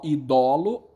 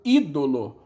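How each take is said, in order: First: The stress is on the second syllable. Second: The stress is on the first syllable. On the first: This is the old form of the word. "a sílaba tônica era o dó" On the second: This is the modern form of the word.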